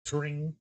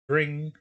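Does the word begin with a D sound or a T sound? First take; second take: T; D. First: The word begins with a T sound. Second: The word begins with a D sound. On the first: "he's saying T" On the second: "instead of D"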